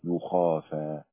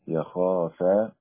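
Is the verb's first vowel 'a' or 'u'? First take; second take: u; a. First: The first syllable has the vowel u. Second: The first syllable has the vowel a. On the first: Others fear on the couple's behalf. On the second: The couple themselves fear.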